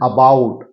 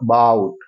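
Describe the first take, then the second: First: The first vowel is a full, clear a. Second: The first vowel is a very short schwa. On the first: The speaker calls it wrong. "ये लोग बोलते हैं अबाउट। अबाउट नहीं, आ तो पूरा नहीं बोलना है" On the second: The speaker calls it right. "आधा। अ बहुत बहुत स्मॉल।"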